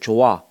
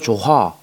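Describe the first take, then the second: First: No h sound is heard between the syllables. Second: An h sound is heard between the syllables. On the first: The speaker calls it right. "히읗이 사라집니다" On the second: The speaker calls it wrong. "아니지"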